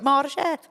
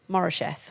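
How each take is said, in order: First: It is said with a heavy Welsh accent. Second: It is said quickly with a light Welsh accent. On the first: "if I said it really Welsh" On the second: "I'm just like saying it fast in a Welsh accent"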